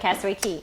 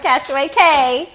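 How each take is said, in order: First: The last word sounds like 'key'. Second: The last word rhymes with 'day'. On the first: The speaker calls it right. "in the Bahamas they say Key" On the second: The speaker calls it wrong. "you're not going to Castaway Cay"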